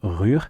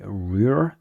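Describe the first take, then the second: First: The R is pronounced as a French R. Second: The R is pronounced as an English R. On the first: "instead of" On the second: "if you say an American or English R"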